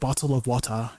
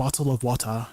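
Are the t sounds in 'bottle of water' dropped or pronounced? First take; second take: pronounced; pronounced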